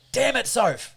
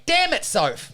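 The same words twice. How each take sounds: First: Higher, drawn-out annoyed complaint; mock exasperated dad. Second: High-pitched imitated child's curse; son copying dad. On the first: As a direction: blame an absent partner in comic frustration. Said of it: "and then I'm like". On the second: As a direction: parrot dad's annoyed outburst as a little kid. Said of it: "he would respond by going".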